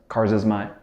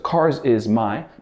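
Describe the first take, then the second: First: Is and my are weak and reduced. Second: Every word is said fully and clearly.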